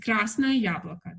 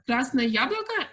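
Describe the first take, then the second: First: It ends falling, like a statement. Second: It ends rising, like a question.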